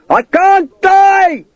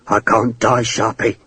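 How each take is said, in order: First: Very high, drawn-out cry; triumphant shout. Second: Low, subdued character plea; pleading. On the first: Fallen man to enemy above, triumphant long high shout. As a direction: howl it slowly in triumph. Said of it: "he shouted triumphantly". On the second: Naked prisoner to his enemy, low pleading. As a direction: plead quietly with your captor. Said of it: "Hakeswill pleaded". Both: A narrator's reading.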